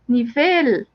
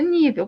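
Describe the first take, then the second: First: The stress falls where Spanish puts it. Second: The stress falls where Portuguese puts it. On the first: This is how Spanish speakers say it. "para eles é nivel" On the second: This is how Portuguese speakers say it. "para nós é nível"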